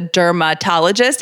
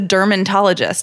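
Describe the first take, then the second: First: No extra N sound is in the middle. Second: An extra N sound is in the middle. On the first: The speaker calls it right. "I didn't realize it was a dermatologist" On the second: The speaker calls it wrong. "You put an and in there? An N? Yeah, I thought it was a dermatologist"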